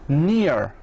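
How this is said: It is said with an American accent, R sounded.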